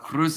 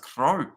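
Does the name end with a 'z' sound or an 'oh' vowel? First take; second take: z sound; oh vowel. First: The name ends with a z sound. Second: The name ends in an 'oh' vowel. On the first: The speaker calls it wrong. "Irish commentator saying Cruz" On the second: The speaker calls it right. "is pronounced Crow. I like the bird crow, French pronunciation"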